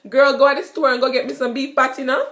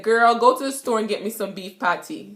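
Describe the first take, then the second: First: Jamaican patois. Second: Said in the usual way. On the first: Shown as a demonstration. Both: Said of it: "and I said".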